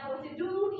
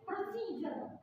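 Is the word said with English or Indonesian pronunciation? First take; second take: Indonesian; English. First: It is pronounced the Indonesian way. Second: It is pronounced the English way. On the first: "dari bahasa Indonesia" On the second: "ke Inggris ya"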